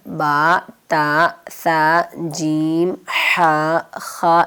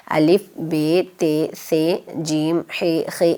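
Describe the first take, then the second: First: Slow, drawn-out Arabic letter names: با، تا، سا، جیم، ہا، خا, each vowel a long open aa. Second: Urdu letter names الف، بے، تے، سے، جیم، ہے، خے, each ending in a short e. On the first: Teacher showing children the Arabic names, slow and clear. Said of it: "کہ عربی کے حروف تہجی". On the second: Teacher contrasting the Urdu names for the children, plain and clear. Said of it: "اور اردو میں". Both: Shown as a demonstration.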